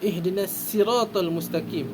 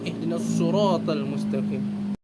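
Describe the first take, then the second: First: Sirat begins with a plain, light s sound. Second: Sirat begins with a heavy, emphatic s sound. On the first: This follows the reading of one particular reciter. "membaca dengan huruf sin" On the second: This follows the reading of the other reciters.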